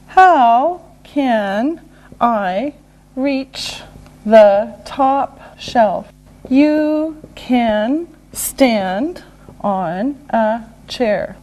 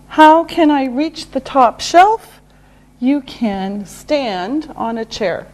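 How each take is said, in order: First: Word by word with pauses; slow and deliberate. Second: Said in the usual way. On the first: Shown as a demonstration. Teacher modelling a how question and answer, slowly. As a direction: pause after each word for learners.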